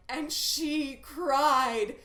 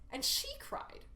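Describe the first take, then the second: First: Loud, very slow, wailing "And she cried"; milk "cried" as a big tragic moment; overwrought wrong reading. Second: "she" lifted very high in a breathy half-whisper; hushed, stress falling on "she" in "And she cried". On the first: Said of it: "completely miss the point". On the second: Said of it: "The text is". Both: Shown as a demonstration.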